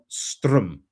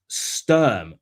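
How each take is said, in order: First: The R sound comes before the vowel. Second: The R sound comes after the vowel. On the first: The speaker calls it wrong. "not Strum" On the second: The speaker calls it right. "He says it's Sturm"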